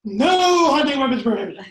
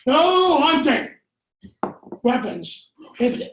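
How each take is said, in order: First: Second reading as a separate clause; alternate reading. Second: Plain sign reading; first reading of sign. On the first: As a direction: split the sign into two orders. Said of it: "What if it's". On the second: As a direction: read it as a flat ban on hunting. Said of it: "misinterpreting this sign". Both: Shown as a demonstration.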